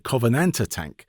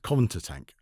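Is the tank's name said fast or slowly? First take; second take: slowly; fast. First: The name is said slowly, with every syllable clear. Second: The name is said quickly, with syllables squashed together. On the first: The speaker calls it right. "So I'll sleep slowly" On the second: The speaker calls it wrong. "I speak fast"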